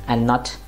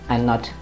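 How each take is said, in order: Both takes have the same delivery.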